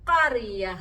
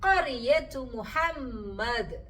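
First: The word ends on a soft h sound. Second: The word ends with a t sound into the next. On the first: The reading stops after this word. "ആദ്യം നിർത്തിയപ്പോൾ നമ്മൾ ഹ സൗണ്ടിലാണ് നിർത്തിയത്" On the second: The reading continues into the next word. "വായന തുടർന്നപ്പോൾ താ മഫ്തൂഹയുടെ സൗണ്ടാണ് നമ്മൾ എടുത്തത്"

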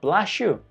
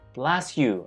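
First: The 's' and 'y' merge into an 'sh' sound. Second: The 's' and 'y' sounds stay separate.

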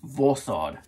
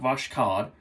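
First: No k sound is heard in the middle. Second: A k sound is heard in the middle. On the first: The speaker calls it right. "the K is silent" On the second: The speaker calls it wrong. "It's not Voshkod"

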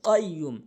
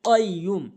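The two takes are said the same way.

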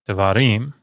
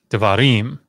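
First: The first vowel is reduced to a short sound. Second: The same.

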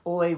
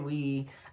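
First: The word sounds like 'oy', rhyming with boy. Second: The word sounds like 'wee', rhyming with see. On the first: The name is read as it is spelled. "Oi is what it looks like" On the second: The name is read as the French word. "I call it we"

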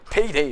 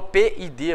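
First: The letters run together quickly into one word. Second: The letters are spoken slowly and separately.

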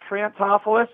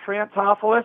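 First: The name is said in a Baltimore way. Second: The same.

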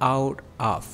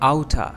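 First: Both words are said fully and separately. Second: The two words merge into one reduced word.

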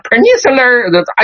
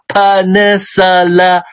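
First: The vowels are r-colored, with a curled tongue. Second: The vowels are plain, with no r-coloring. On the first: The speaker calls it wrong. "一卷就完蛋，就读错了啊" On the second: The speaker calls it right. "我再念慢一点啊，我舌头都是平的"

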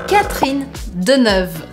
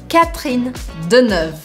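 No difference in how they are said.

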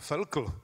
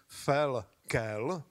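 First: No vowel comes before the final l. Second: A clear e vowel comes before the final l. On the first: The speaker calls it wrong. "co ho vždycky zkracovali na Felkl, tak se mýlili" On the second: The speaker calls it right. "on se vyslovuje přesně tak, jak je to na těch obrázcích"

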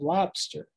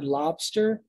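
First: The middle consonant is a P sound. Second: The middle consonant is a B sound. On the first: "place a P instead and you have lobster" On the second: "lobster is with a B"

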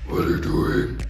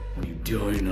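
First: It is said in a scary voice. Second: It is said in a normal voice.

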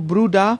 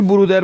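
First: The word ends with an ah vowel sound. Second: The word ends with a pronounced r sound. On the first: The speaker calls it right. "برودا بهتر و صحیح تره" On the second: The speaker calls it wrong. "برودر بگیم درسته"

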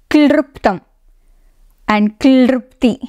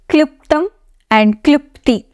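First: The vowel after 'kl' sounds like 'ru'. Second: The vowel after 'kl' sounds like 'i'. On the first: The speaker calls it wrong. "it's not klruptam and klrupti" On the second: The speaker calls it right. "It is kliptam and klupti"

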